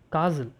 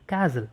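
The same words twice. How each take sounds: First: It is said in a British accent. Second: It is said in an American accent. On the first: "In British accent it is castle" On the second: "in American accent it is castle"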